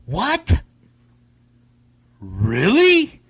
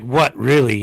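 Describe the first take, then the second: First: "What?" leaping high, then a drawn-out rising "Really?"; two separate incredulous questions, each swooping up; mock surprised questioning. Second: "What really?" run together at normal pitch, no big rise; title said as one phrase. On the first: Host echoing the game's title, "What?" and "Really?" as amazed rising questions. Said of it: "It's more like "What really?". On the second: Host explaining the game's title, "What really?" as one plain phrase. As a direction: say "What really?" evenly, without the surprise. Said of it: "It's more like". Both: Shown as a demonstration.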